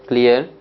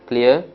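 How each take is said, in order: Both takes have the same delivery.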